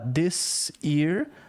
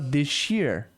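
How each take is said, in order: First: The s and y sounds stay separate. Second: The s and y merge into a sh sound. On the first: "ao invés de falar this year" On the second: "muita gente fala this year. É um sotaque"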